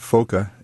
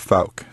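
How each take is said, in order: First: The name is said the Dutch way. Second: The name is said the American way. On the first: This is how the name is said in Holland. "in Holland, they pronounce it Foka" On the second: This is how the family says it in the States. "they changed it to Fauk"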